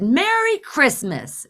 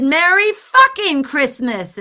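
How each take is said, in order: First: High, slow, pointed holiday greeting. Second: Loud, high, drawn-out sarcastic greeting; angry greeting. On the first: Angry driver to the woman ignoring her, pointedly sweet. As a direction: draw out the greeting with forced cheer. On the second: Ignored driver escalating at the woman, loud and angry. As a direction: belt it slowly with exasperated force. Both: Retold or imitated.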